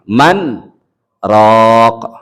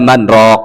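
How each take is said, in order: First: A brief break separates the two words. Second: The two words run together without a break. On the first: The speaker calls it right. "Di situ ada sak saktah" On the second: The speaker calls it wrong. "Jangan langsung disambung"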